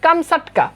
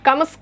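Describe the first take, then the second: First: The name ends with a clear 'satka' sound. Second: The name is cut short without 'tka'. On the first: The speaker calls it right. "মূল উচ্চারণ হচ্ছে কামসাটকা" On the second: The speaker calls it wrong. "এটার মূল উচ্চারণ কিন্তু আসলে এমন না"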